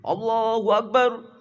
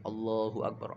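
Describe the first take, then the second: First: It is shouted very loudly. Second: It is said at normal volume.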